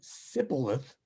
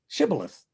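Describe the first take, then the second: First: The word begins with an 's' sound. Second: The word begins with an 'sh' sound. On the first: The speaker is an Ephraimite outsider. The speaker calls it wrong. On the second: The speaker is a local from Gilead. The speaker calls it right.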